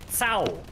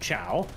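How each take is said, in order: First: The name begins with a 'ts' sound. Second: The name begins with a 'ch' sound. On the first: It is the name's actual pronunciation. The speaker calls it right. "No, no, Cao" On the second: It is read the way the letters suggest. The speaker calls it wrong. "which would be at best like chow chow"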